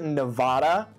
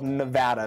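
First: It is said the East Coast way. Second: It is said the Western, local way. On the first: The speaker calls it wrong. "If you pronounce it Nevada, you're wrong" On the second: The speaker calls it right. "it's called Nevada"

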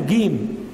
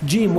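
First: The first consonant sounds like a hard 'g'. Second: The first consonant sounds like English 'j'. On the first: "وإنما ينطقونها جيم" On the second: "وأهل القاهرة لا ينطقون الجيم جيم"

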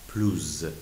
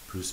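First: The word ends with a z sound. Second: The word ends with an audible s sound. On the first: A vowel-initial adjective follows in a comparison. "ما لیزون میکنیم و پلوز خونده میشه" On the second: It means more. "اس تلفظ میشه"

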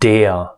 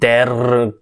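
First: A long e ends in a short ah-like r. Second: It is pronounced like an English word. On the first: The speaker calls it right. "긴 에 발음에다가 알 발음을 몸화된 약간 짧은 아하고 비슷한" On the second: The speaker calls it wrong. "영어인 것처럼"

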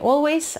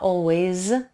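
First: The final sound is a voiceless s. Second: The final sound is a voiced z. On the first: The speaker calls it wrong. "Не теряйте z, звонкую на конце, не always" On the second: The speaker calls it right. "а always"

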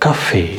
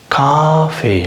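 First: The first vowel is short. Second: The first vowel is long. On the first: The speaker calls it right. "இல்லை கஃபே" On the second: The speaker calls it wrong. "காஃபே இல்லை"

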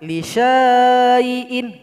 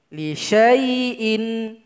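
First: The vowel after the sh sound is drawn out long. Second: The vowel after the sh sound is kept short. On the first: The speaker calls it wrong. "Salah kalau dibaca li syai'in, nggak boleh" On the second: The speaker calls it right. "Di shin ini pendek langsung gabung ke ya"

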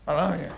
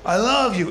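First: It is said haltingly, barely getting out. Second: It is said bluntly and directly.

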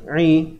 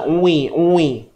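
First: The lips are narrowed, not pushed out. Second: The lips are pushed out and rounded. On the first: The speaker calls it right. "Huruf ain baris bawah sempitkan je" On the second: The speaker calls it wrong. "jangan oi oi oi oi. Ah, kan mulut muncung pula"

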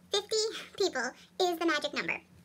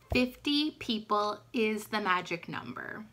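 First: It is said fast in a high chipmunk voice. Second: It is said in her normal voice.

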